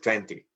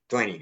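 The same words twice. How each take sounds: First: The T after the N is pronounced. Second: The T after the N is dropped. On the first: "instead of" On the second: "the case of twenty"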